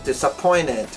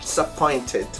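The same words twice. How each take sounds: First: The T after the N is dropped. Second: The T after the N is pronounced. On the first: The speaker calls it right. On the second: The speaker calls it wrong.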